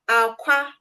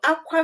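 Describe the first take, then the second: First: It carries the tone pattern of 'egg'. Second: It carries the tone pattern of 'to cry'. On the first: It means egg. "aqua means egg" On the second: It means to cry. "aqua means to cry"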